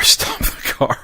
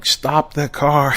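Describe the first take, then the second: First: Breathless laughing repeat; laughing through it. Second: Slow, drawn-out half-shouted call; mock yell. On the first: Retold or imitated. Dad chasing the car, dissolving into laughter. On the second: Dad chasing the car, slow drawn-out mock yell. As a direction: call out slowly after the car. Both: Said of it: "I'm yelling".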